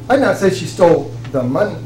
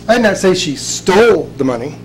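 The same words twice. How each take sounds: First: The stress falls on the word money. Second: The stress falls on the word stole. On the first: She stole something other than the money. "She may have stole something, but it wasn't the money" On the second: She may have borrowed the money instead. "She may quite possibly have borrowed it"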